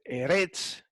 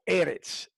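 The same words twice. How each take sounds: First: The stress is on the last syllable. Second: The stress is on the first syllable. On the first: The speaker calls it wrong. "aquí no se dice Eretz" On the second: The speaker calls it right. "la primera es la que lleva el acento"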